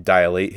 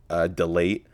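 First: Dilate said as "die-late" with a long first vowel; corrected pronunciation. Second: Dilate said as "dih-late" with a short i; stumbling "dilate" said as tih-LATE; "dilate" misread with a short first vowel; mispronounced. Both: Shown as a demonstration. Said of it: "Uh, I'm sorry".

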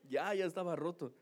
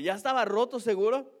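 First: Said in the usual way. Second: Más fuerte y agudo, incrédula; la esposa no le cree, sube la voz; incredulous wife. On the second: Retold or imitated. Wife doubts his excuse. (esposa incrédula, pregunta fuerte y aguda)

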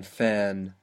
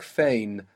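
First: "fan" with a flat a as in "cat"; mistaken vowel. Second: "fain" with an ay glide; corrected vowel. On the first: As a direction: say "fan" with no ay glide. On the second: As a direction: say "fain" to rhyme with "rain". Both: Shown as a demonstration. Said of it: "more like fain than fan".

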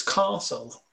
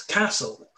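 First: Castle with a long southern ah, like "car-sul"; southern pronunciation. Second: Castle with a short flat northern a, like "cat"; northern pronunciation. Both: Retold or imitated. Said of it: "pronounce things slightly differently".

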